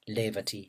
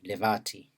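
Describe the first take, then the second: First: The stress is on the first syllable. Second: The stress is on the second syllable. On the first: "an initially stressed word" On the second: "medially stressed word"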